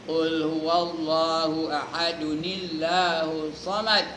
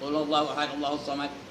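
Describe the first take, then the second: First: Ahad is linked to Allahu with an added 'uni' sound. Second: The words run on without a stop or linking sound. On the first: "Itu namanya wasal" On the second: "Wakaf pun tidak, wasal pun tidak"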